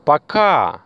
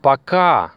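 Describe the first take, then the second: First: Пока repeated higher, KA clearly stressed. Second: Пока said pa-KA with a falling end; stress on second syllable. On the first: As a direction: make the students hear KA in Пока. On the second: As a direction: land on the KA of пока. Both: Shown as a demonstration. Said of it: "You see the stress?".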